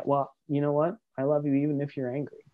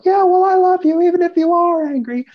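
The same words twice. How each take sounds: First: Calm and even, a little softer. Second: Yelled much higher and louder; angry yell up the stairs. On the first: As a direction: stay steady and reassuring, no heat. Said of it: "stick in your calm place and be able to say". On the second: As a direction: shout it back up the stairs in a fury. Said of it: "you can't yell this up the stairs". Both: Shown as a demonstration.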